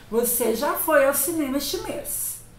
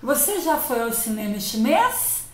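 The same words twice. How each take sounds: First: It is said as a flat statement. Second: It is said as a question.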